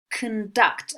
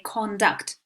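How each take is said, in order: First: "conduct" said kuhn-DUCT, first vowel reduced to a schwa; slow, careful "conduct" with a weak "uh" in the first syllable. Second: "conduct" said KON-duct, first syllable with a full open "o"; "conduct" with the first vowel fully sounded, not reduced; wrong full vowel. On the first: Teacher models the right pronunciation for students, schwa "conduct". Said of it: "Notice the schwa sound there in the first syllable". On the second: Teacher shows students the wrong take, full-vowel "conduct". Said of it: "We don't say conduct". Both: Shown as a demonstration.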